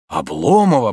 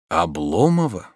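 First: Repeated in disbelief. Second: Astonished. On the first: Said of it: "повторил он вновь". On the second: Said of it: "повторил он в изумлении". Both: A narrator's reading.

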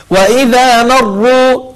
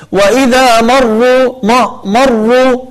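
First: مروا with a thin م and a thick ر; correct light m. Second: مروا with a thick, dark م; wrong heavy m. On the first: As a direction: keep the م light in مروا and darken the ر. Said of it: "فنرقق الميم ونفخم الراء". (ترقيق الميم وتفخيم الراء في مروا) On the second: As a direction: darken the م of مروا, the mistake. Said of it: "يفخم الميم". (تفخيم الميم في مروا خطأ) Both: Shown as a demonstration.

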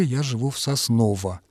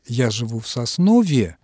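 First: Сосново left undeclined, ending in unstressed -о. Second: Соснове with a declined -е ending. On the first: Language expert giving the other variant, Сосново ending in -о. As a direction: keep Сосново unchanged with its -о ending. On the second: Language expert posing a listener's question, Соснове ending in -е. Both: Shown as a demonstration. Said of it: "как правильно сказать".

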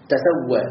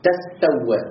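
First: تسوى said as tusawwā; reading tusawwa. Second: تستوى with the ت merged into س; assimilated reading. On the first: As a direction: give تسوى its passive reading. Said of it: "ليس تسوي". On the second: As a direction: say تستوى with the doubled س. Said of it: "مع إدغامها في السين". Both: Shown as a demonstration.

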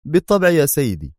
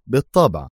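First: Higher, resigned of course. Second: Fading resigned repeat; resigned echo. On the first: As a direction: give in to the boss. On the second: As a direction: let the repeat sink in defeat. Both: A narrator's reading. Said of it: "غمغم بيرت في استسلام".

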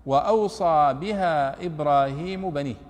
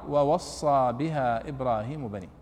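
First: "وأوصى" with a glottal stop and a long "aw": "wa-awsa"; recited slowly, "وأوصى" spoken with a clear hamza; reading of Nafi and Ibn Amir. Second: "ووصى" with no hamza and a doubled sad: "wa-wassa"; recited slowly, "ووصى" spoken as "wa-wassa"; reading of the other readers. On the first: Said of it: "قرأ هو ونافع". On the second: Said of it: "بقية القراء". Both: Shown as a demonstration.

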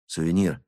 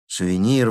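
First: Said in the usual way. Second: A bit louder call; rising exclamation. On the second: A narrator's reading. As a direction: call his name more sharply. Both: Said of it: "воскликнул я".

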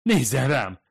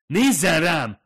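First: "Nézzen rám!" moaned, loud and high, begging; moaning plea. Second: Loud, high furious command; angry shout. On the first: Fumiko begs the ghost to look at her, moaning plea. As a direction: plead instead of commanding. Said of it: "nyögdécselte". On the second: Fumiko yells at the woman who ignores her, angry shout. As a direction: make her look at you, furious. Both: Acted.

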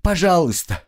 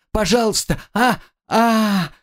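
First: High, begging Пожалуйста; first plea, already higher and urgent; pleading. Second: Higher still, breaking into cries of pain; Пожалуйста pitched much higher, then a cry; desperate pleading. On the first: Captive begs her torturer, high urgent pleading. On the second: Captive begs again in pain, higher desperate pleading with cries. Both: Acted. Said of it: "пленница снова взмолилась".

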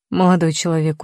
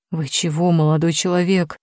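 First: Put-on condescending old doorman; patronizing. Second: A hint of a scared old man; babbling in fright. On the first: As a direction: talk down to the young man. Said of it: "проговорил покровительственным тоном". (покровительственным тоном) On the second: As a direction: stammer it out, frightened. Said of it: "залепетал гардеробщик". (испуганно лепеча)

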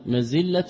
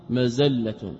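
First: مزلة said mazilla, with kasra on the zay; careful pronunciation. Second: مزلة said mazalla, with fatha on the zay; careful pronunciation. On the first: Teacher to students, showing مزلة as mazilla with kasra on the zay. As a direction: read مزلة as mazilla, i after the z. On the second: Teacher to students, showing مزلة as mazalla with open zay. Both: Shown as a demonstration. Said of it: "كسر الزاي وفتحها".

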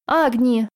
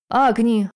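First: Громкий оклик; urgent call. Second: A louder, desperate cry of the name; страшный крик; terrible scream. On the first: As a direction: cry out for her attention. Salamander calls her urgently. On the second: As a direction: scream her name in terror. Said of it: "вдруг страшно закричал мой дракон". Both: A narrator's reading.

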